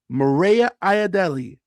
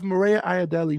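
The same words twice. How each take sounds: First: The name is said slowly. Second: The name is said at normal speed.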